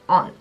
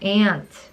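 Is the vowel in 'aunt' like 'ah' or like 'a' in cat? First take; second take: ah; cat. First: The vowel is an open 'ah', British-style. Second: The vowel sounds like the 'a' in cat. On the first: This is how people said it where the speaker lived. "aunt라고 이렇게 좀 영국식으로 불렀거든요" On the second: This is the form taught in Korea. "한국에서는 이모를 ant라고 부르잖아"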